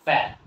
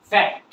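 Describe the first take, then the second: First: "ফ্যাক্ট" cut short after the vowel, T unreleased; silent final T. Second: Said in the usual way. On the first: Shown as a demonstration. Teacher shows fat to learners as "ফ্যাক্ট" with silent T. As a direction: say "ফ্যাক্ট" as fa, swallowing the ending. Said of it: "কি বলবো আমরা?". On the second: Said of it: "এর উচ্চারণ কি করবো?".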